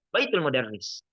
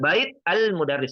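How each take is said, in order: First: It is said as one unbroken unit. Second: It is split into separate parts with a break. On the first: The speaker calls it right. "dalam satu tekanan, dalam satu kalimat" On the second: The speaker calls it wrong. "tidak boleh dipisah"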